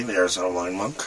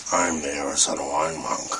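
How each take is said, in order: First: Hoarse, quick lost voice; raspy whisper. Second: Batman voice. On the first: Real, not acted. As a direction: rasp it out fast, voice gone. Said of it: "I have no voice". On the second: Pretend. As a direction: lower superhero growl. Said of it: "I'm Batman".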